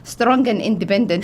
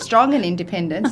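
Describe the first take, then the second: First: It is said with an Arabic accent. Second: It is said with a plain English accent. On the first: It is the Arabic hashtag version of the phrase. "you know it's been written in Arabic with a hashtag" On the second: It is an ordinary English phrase. "so you know it's in English"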